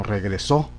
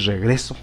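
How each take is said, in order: First: "regresó" stressed on the final SÓ; stress on last syllable. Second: "regreso" stressed on GRE; weight on GRE in "regreso", light final syllable; stress on middle syllable. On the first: Teacher correcting to the intended word, stress on SÓ in "regresó". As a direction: put the weight on SÓ in "regresó". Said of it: "sino regresó". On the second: Teacher naming the word not wanted, stress on GRE in "regreso". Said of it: "la idea no es escribir regreso". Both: Shown as a demonstration.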